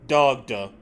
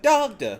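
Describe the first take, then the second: First: The name is said flatly as a command. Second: The name is called out warmly to someone. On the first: He is giving him an order. "he's commanding him instead of calling to him" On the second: He is calling out to him. "he's like dogda normally"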